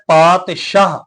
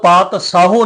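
First: The word ends on 'shah' with no final vowel. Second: The word ends with an added 'u' vowel sound. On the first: The speaker calls it right. "ਆਪਾਂ ਉਚਾਰਨ ਕਰਨਾ ਹੈ ਪਾਤਸ਼ਾਹ" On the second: The speaker calls it wrong. "ਇਹਨੂੰ ਪਾਤ ਸਾਹੂ ਨਹੀਂ ਪੜਨਾ"

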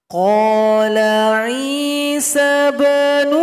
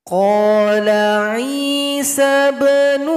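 The two takes are said the same way.

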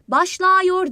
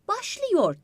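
First: The second syllable has the wide vowel a. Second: The second syllable has the narrow vowel ı. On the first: The speaker calls it wrong. "Mesela başlıyor demeyiz" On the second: The speaker calls it right. "Başlıyor deriz"

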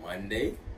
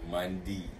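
First: The word ends with a 'day' sound. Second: The word ends with a 'dee' sound. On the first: "the last part of the word would say day" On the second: "they say D"

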